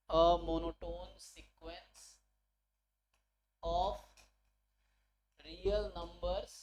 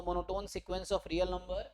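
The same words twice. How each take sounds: First: Very slow, spaced-out dictation; word by word, with long pauses for writing. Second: Said in the usual way. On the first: Real, not acted. Teacher dictating the theorem statement to students, slow dictation. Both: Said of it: "word to word लिख के बता रहा हूँ".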